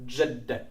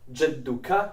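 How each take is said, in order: First: The word ends short, with a clipped -ek. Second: The word ends with a full -uka syllable. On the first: It is the colloquial spoken form. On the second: It is the formal standard form.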